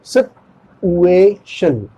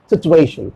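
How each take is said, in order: First: सिचुएशन very slowly, "sit... u-ay... shun"; syllable by syllable. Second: सिचुएशन run together as "sit-u-ay-shun"; said fast. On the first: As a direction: pause between the parts of सिचुएशन. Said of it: "इसका correct pronunciation होगा". (सिचुएशन को बहुत धीरे, तोड़कर) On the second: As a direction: join सिचुएशन quickly into one word. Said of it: "fast बोलेंगे तो कैसे होगा". (सिचुएशन एक साथ, जल्दी से) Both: Shown as a demonstration.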